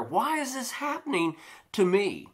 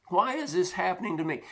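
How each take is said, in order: First: Lamenting why me. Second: Faster, pressing echo of the complaint, pitched up; quick repeated lament. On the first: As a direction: draw out the complaint, wondering aloud. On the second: Preacher voicing the believer, quicker anxious echo. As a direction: rush the repeat like rising worry. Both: Retold or imitated. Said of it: "And we wonder".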